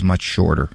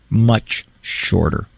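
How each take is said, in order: First: Said in the usual way. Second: "much shorter" slowed right down for emphasis; emphatic repeat. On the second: Real, not acted. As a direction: draw out "much", pause, then "shorter".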